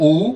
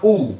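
First: The vowel is drawn out long. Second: The vowel is short. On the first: "U panjang intonasinya" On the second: "Nomor 5 U"

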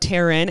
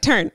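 First: Both syllables of the name are said clearly. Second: The name is squashed into one syllable. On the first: The speaker calls it right. "really pronouncing it" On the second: The speaker calls it wrong. "mushed your name together"

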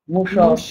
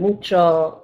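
First: The word is said in an El Paso accent. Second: The word is said in a standard accent. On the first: "she says things like mucho" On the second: "rather than mucho"

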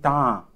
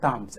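First: The word ends on a vowel without s. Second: The word ends with an audible s sound. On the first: The speaker calls it right. "It is ta, not tams" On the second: The speaker calls it wrong. "Many people say tams. It is not tams"

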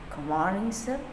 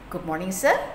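First: The words are slurred and unclear. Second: The words are articulated clearly and fully. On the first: The speaker calls it wrong. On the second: The speaker calls it right. "Juga harus jelas"

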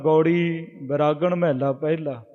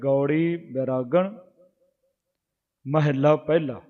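First: The words run together without pauses. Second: The words are separated by short pauses. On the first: The meaning does not come through. The speaker calls it wrong. "ਤੇ ਉਹਦਾ ਅਰਥ ਨਹੀਂ ਬਣਦਾ" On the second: The meaning becomes clear by itself. The speaker calls it right. "ਨਖੇੜ ਕੇ ਪੜਾਂਗੇ, space ਦੇ ਕੇ ਪੜਾਂਗੇ"

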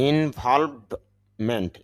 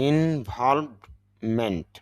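The two takes are said the same way.

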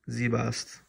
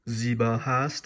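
First: It is said contracted, vowels merged. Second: It is said in full with two vowels. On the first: "it's saying Zibast" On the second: "instead of saying Zibahast"

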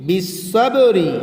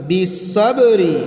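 Both takes have the same delivery.

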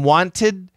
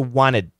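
First: The T after the N is clearly pronounced. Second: The T after the N is dropped entirely. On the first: "So from wanted" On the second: "So we cancel the T. We still have the syllable"

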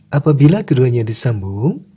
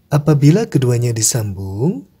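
No difference in how they are said.

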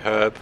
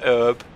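First: The word starts with a pronounced h sound. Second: The word starts with a silent h. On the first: The speaker calls it right. "I say herb. ... that H is there for a reason" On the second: The speaker calls it wrong. "Not herb"

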